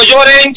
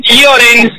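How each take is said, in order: First: Said in the usual way. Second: "Lloren" opening with a light "li" glide; Luis's pronunciation. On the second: Shown as a demonstration. Commentator repeats club name as Luis says it, "li" pronunciation. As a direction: say "Lloren" as "Lioren". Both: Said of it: "como dice nuestro amigo Luis".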